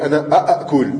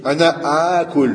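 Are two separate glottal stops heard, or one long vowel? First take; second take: two stops; long vowel. First: Two glottal stops are pronounced one after another. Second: The two stops merge into one long vowel. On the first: The speaker calls it wrong. "L'origine, c'est ana a'akul... Mais ça se dit pas" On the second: The speaker calls it right. "Ils ont joint les deux hamza ensemble... qui fait un mètre"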